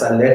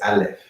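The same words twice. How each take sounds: First: The word has a Spanish-style pronunciation. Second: The word has a Hebrew-style pronunciation. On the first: The speaker calls it wrong. "Aleph no es Aleph" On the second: The speaker calls it right. "es Aleph"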